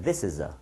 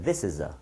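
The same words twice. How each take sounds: First: The words run together in one single breath. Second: The words run together in one single breath.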